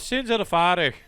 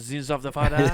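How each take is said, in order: First: It is spoken in an Irish accent. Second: It is spoken in a French-like accent. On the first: "I can't say sins of the father without doing an Irish accent" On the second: "you'd have to say it closer to French"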